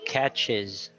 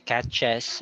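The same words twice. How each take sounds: First: The last syllable has an 'ih' vowel. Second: The last syllable has an 'eh' vowel. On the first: The speaker calls it right. "It has to be pronounced as is" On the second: The speaker calls it wrong. "you don't say"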